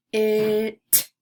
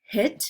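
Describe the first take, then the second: First: "hit" with a long, held i; roller-coaster word. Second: Said in the usual way. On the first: Shown as a demonstration. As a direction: puff the h, then stretch the i before t. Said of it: "putting an emphasis on the middle". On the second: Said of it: "roller coaster some words".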